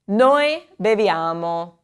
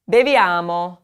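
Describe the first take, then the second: First: Noi beviamo, slow; noy beh-VYAH-moh, slowly; repeat for class. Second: Beviamo, firm and clear; beh-VYAH-moh; teacher modeling beviamo; model for repeating. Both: Shown as a demonstration.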